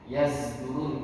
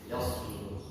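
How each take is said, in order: First: The middle consonant is a z sound. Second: The middle consonant is an emphatic s sound. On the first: This is another recognized reading tradition. "zai itu dalam qiraah Imam Hamzah" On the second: This is the reading the listeners must follow. "harus baca pakai shad"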